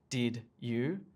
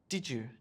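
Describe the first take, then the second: First: The d and y are said separately, robot-like. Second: The d and y blend into a j sound. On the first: The speaker calls it wrong. "We never say did you. It sounds like a robot" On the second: The speaker calls it right. "we add this j sound"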